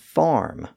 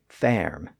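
First: The vowel is the modern 'ar' sound. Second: The vowel is an older 'er'-like sound. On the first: This is the present-day pronunciation. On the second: This is the pronunciation from centuries ago.

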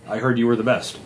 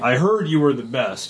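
First: It is said in a plain, matter-of-fact tone. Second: It is said in a flattering, ego-stroking tone.

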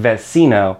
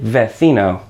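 First: The c is said with an s sound. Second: The c is said with a th sound. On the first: "it can also make a c sound, like in vecino" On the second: "in Spain, in that second case, in vecino, the c makes a f sound, so it would be vecino"

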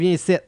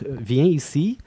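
First: The words are swallowed, back in the throat. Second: The words are pronounced clearly and fully. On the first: This is how locals actually speak. "everybody swallows everything" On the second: This is the standard way it is taught. "a sentence that you would say like"

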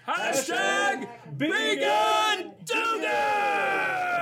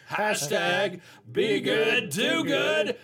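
First: It is said loudest and wildest. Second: It is said louder than before.

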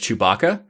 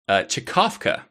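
First: It sounds like 'Chewbacca', with a 'ba' syllable. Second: It sounds like 'Chekovka', with a 'kov' syllable. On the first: The speaker calls it wrong. "this might be pronounced as Chewbacca. That is unfortunately not correct" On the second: The speaker calls it right. "It is actually pronounced Chekovka"

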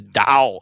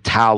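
First: Tao is said the Chinese way. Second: Tao is said the common anglicized way. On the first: "The Chinese pronunciation is actually" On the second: "Some people call it the Tao of Twitter"

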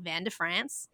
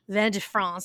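First: It is said with a hillbilly accent. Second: It is said with a French accent.

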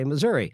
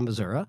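First: It uses the urban local pronunciation. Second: It uses the rural local pronunciation. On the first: The speaker is from the city. "urban Missourians tend to say Missouri" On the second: The speaker is from the countryside. "Rural Missourians tend to say Missouri"

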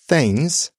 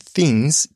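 First: The vowel sounds like a short a. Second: The vowel sounds like a short i. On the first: The speaker calls it wrong. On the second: The speaker calls it right.

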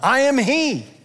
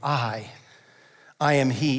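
First: It is said in an exasperated, frustrated tone. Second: It is said in a gentle, compassionate tone. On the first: "Did he say it with frustration?" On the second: "Or with compassion?"

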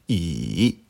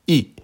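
First: The pitch dips low, then rises. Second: The pitch falls sharply from high. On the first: "Troisième ton" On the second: "Quatrième ton"

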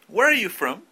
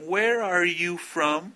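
First: The words run together smoothly, linked. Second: Each word is said separately, not linked. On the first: The speaker calls it right. "supongo que están haciendo el word linking" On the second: The speaker calls it wrong. "No digan, ... No suena natural"

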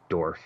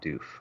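First: The name is said with an R sound. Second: The name is said without an R sound. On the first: The speaker calls it right. "It is Dorf" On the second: The speaker calls it wrong. "It is not Doof"

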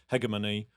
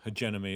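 First: It is said in the speaker's own pronunciation. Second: It is said in the local pronunciation.

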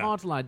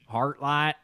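First: It is said in a non-American accent. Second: It is said in an American accent.

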